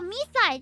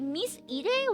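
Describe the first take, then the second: First: The name is read as "Me Side". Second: The name is read as "Miss Ide". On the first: The speaker calls it right. "Oh, me side, yeah" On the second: The speaker calls it wrong. "I suddenly don't know how to pronounce it. I was like"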